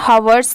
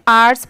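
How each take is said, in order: First: The word starts with a clear h sound. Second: The word starts with a vowel, no h sound. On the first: The speaker calls it wrong. "हवर्स नहीं" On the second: The speaker calls it right. "यहाँ पर भी letter एच silent है, इसे सिर्फ आर्ट्स पढ़ रहे हैं"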